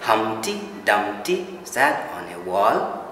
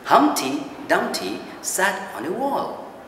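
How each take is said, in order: First: Every syllable gets roughly equal stress. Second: Only the key syllables are stressed. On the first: The speaker calls it wrong. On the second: The speaker calls it right.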